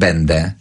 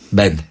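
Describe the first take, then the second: First: The final vowel is clearly voiced and audible. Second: The final vowel is devoiced and barely audible. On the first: The speaker calls it right. "e jest na końcu dźwięczne" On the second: The speaker calls it wrong. "jak będzie bezdźwięczne e"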